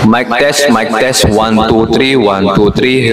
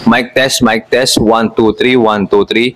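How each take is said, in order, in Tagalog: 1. May dagdag na umaalingawngaw na reverb ang boses. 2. Pinipigilan ang ingay sa paligid ng boses. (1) "Then i-on ko naman yung reverb" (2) "Ngayon ito is may naka-on yung noise cancelling niya"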